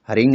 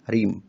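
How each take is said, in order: First: The syllable ends with an ng sound. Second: The syllable ends with an m sound. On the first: The speaker calls it wrong. "हरिंग नहीं" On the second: The speaker calls it right. "नहीं हरीम"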